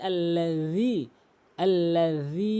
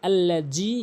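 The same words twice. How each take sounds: First: Tongue to teeth for th in আল্লাজি, then hold the vowel; correct pronunciation. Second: আল্লাজি with a hard j; common mispronunciation. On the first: Teacher models it correctly, th and drawn-out ending in আল্লাজি. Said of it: "এখানে সঠিক উচ্চারণ হচ্ছে". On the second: Teacher copies the mistake, hard j in আল্লাজি. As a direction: put a j sound in the last syllable of আল্লাজি. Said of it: "এরপরে যেই ভুলটি করে". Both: Shown as a demonstration.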